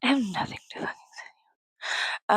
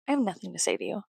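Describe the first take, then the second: First: Quick, hushed whisper. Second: Said in the usual way. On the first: Pretend. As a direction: hiss it fast in a whisper. Repeats the line in a whisper.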